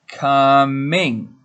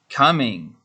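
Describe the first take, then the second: First: It is said slowly and carefully. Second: It is said a little faster.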